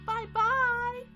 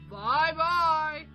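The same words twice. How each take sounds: First: It is said in a high, squeaky voice. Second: It is said in a deep, gruff voice.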